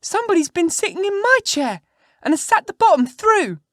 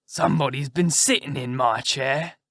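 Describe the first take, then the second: First: Put-on very high, loud squeaky baby-bear voice; little wee bear. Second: Rough, growly big-bear voice; great rough gruff bear. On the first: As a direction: squeal it out as a tiny, outraged bear. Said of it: "in his little wee voice". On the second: Acted. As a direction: grumble it out as a huge gruff bear. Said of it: "in his great rough, gruff voice".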